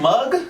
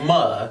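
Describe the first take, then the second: First: The word ends with a hard g sound. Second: The word ends with a breathy h sound. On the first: "with a G at the end" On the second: "with an H like mug"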